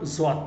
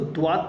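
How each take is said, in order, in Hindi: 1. अक्षर की शुरुआत j जैसी आवाज़ से होती है। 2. अक्षर की शुरुआत साधारण d की आवाज़ से होती है। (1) "ज्वाद पढ़ते हैं" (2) "बहुत सारे लोग इसको द्वाद पढ़ते हैं"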